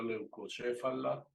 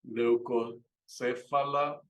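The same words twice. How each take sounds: First: "leucocéfala" with c before é as ch; correct Latin pronunciation. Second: "Leucocéfala" slowly, c before é as s; Spanish-style pronunciation. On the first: Teacher showing how it's really pronounced, correct pronunciation. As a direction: say "leucocéfala" as leu-ko-CHE-fa-la. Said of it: "y realmente se pronuncia". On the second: Teacher reading the bird name as in Spanish, Spanish-style pronunciation. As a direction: say "Leucocéfala" as leu-ko-SE-fa-la. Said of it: "realmente se pronuncia leucocéfala". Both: Shown as a demonstration.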